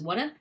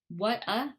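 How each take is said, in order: First: The T is softened into a quick D sound. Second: The T is a crisp, separate T sound. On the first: "it turns the T to the D" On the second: "What a becomes"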